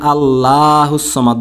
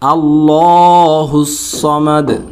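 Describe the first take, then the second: First: The final d stops flat without an echo. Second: The final d is released with an echoing bounce. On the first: The speaker calls it wrong. "এখানে আল্লাহুস সামাদ বলা যাবে না" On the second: The speaker calls it right. "বলতে হবে আল্লাহুস সামাদ"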